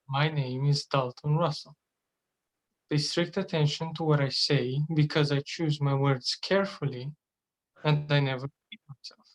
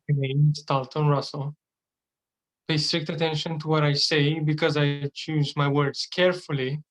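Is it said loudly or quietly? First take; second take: quietly; loudly. First: It is said quietly and calmly. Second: It is said loudly and forcefully.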